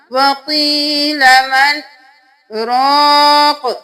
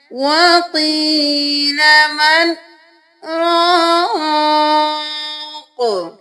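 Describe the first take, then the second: First: A broken stop after مَنْ, then a short رَاقٍ; wrong sakta. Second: Slow chant with a held-breath pause after مَنْ and a long رَاقٍ; sung, halt briefly without breathing, then stretch رَاقٍ; sung, correct sakta. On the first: Teacher shows students how not to pause, breath broken after مَنْ. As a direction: break off at مَنْ and restart briskly on رَاقٍ. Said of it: "اس طرح سے نہیں کرنا". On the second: Sung, teacher shows the proper pause, slow sustained recitation. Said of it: "سانس جاری رکھنا ہے، تھوڑی دیر رک جانا ہے". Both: Shown as a demonstration.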